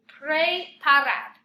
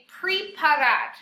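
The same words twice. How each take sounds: First: The first vowel sounds like an eh sound. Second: The first vowel sounds like an ee sound. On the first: The speaker calls it right. "since it's an E, it's pre" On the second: The speaker calls it wrong. "a lot of you with preparar are saying preparar"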